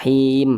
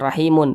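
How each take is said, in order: First: The word ends on a silent m consonant. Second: The word ends with an added vowel ending. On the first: The speaker calls it right. "harus kita sukunkan" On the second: The speaker calls it wrong.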